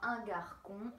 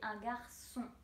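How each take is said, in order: First: The c is sounded as a hard k. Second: The c is sounded as a soft s. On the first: The speaker calls it wrong. "je ne dirai pas" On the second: The speaker calls it right. "je dirai"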